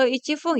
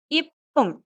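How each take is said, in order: First: It begins with ichi followed by f. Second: It begins with a short ip, with no chi. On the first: The speaker calls it wrong. "atau ichifung ya" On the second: The speaker calls it right. "tapi ipung"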